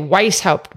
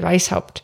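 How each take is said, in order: First: The name is said with an American pronunciation. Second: The name is said with a German pronunciation. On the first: "in American you would say Weishaupt" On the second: "but in German you would say Weishaupt"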